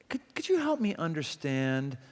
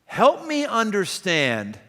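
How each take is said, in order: First: Soft, humble could you help me understand; gentle tone. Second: Slow, flat help me understand as a demand. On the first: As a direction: ask it quietly and kindly. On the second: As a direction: put them on their heels, curt and slow. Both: Shown as a demonstration. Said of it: "here's the same words, different tone".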